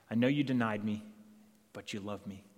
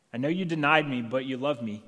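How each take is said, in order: First: Gentle reassurance. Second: Louder, stressing denied, full conviction; firm declaration. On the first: Jesus reassures Peter. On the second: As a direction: proclaim it firmly. Jesus repeats, stronger. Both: Acted.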